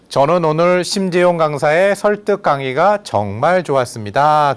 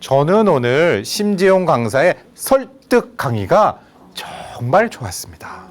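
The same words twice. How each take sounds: First: It is spoken plainly with an even rhythm. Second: It is spoken with a bouncy, varied rhythm.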